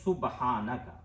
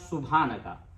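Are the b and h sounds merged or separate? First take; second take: separate; merged. First: The b and h are pronounced separately. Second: The b and h blend into one sound. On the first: The speaker calls it right. "हमें पढ़ना चाहिए सुबहानका" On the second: The speaker calls it wrong. "ये दोनों को मिला के पढ़ेंगे"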